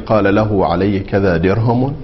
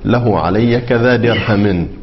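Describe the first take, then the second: First: The last word ends in the vowel u. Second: The last word ends in the vowel i. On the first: "بالحركات الثلاث ... الرفع" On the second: "الجر"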